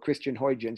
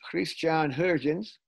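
First: The name has the usual anglicized pronunciation. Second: The name has a foreign, non-English pronunciation.

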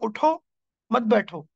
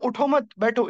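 First: There is a pause after the first word. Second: There is a pause after the second word. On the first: Stand up, do not sit. "अगर मैं गलत जगह रुकूं" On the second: Do not get up, stay seated. "इसका मतलब है कि बी seated"

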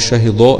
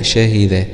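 First: The D sound is thick and heavy. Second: The D sound is thin and light. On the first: The speaker calls it wrong. "احذر ان تفخم منك اللام ... لا" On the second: The speaker calls it right. "شهد الله هكذا"

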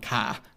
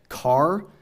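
First: The final r is dropped with an open vowel. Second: The final r is pronounced.

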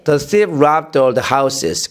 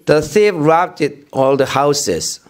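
First: The d of robbed runs straight into all. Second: The d of robbed is released as a separate syllable. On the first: The speaker calls it right. "그냥 이렇게 가면 돼" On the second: The speaker calls it wrong. "robbed did 너무 이렇게 하면은 다음 발음하기 힘들잖아"

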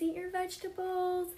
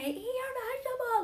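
First: It is said in a gentle, polite tone. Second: It is said in a harsh, yelling tone. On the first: The speaker is asking kindly. The speaker calls it right. "I'll just be like, can you please eat your vegetables?" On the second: The speaker is being mean to the listener. The speaker calls it wrong. "I'll never say eat your vegetable like that"

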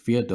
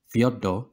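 First: The name is pronounced in an anglicized way. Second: The name is pronounced in a Russian way. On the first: "I'm going to go with Fyodor because it's easier for me to pronounce" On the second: "as I think it's correctly pronounced in Russian"

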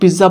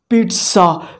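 First: The middle sound is a plain 'z' with no 't'. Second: The middle sound is a 'ts' with a 't'. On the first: The speaker calls it wrong. "Pakistani people mostly call it pizza, but this is wrong" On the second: The speaker calls it right. "The right word is pizza. Pronounce T"

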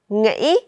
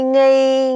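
First: The syllable is said on a broken rising tone. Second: The syllable is said on a level tone.

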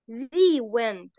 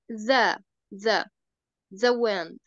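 First: The word 'the' is said like 'thee'. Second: The word 'the' is said like 'thuh'. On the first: The speaker calls it wrong. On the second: The speaker calls it right.

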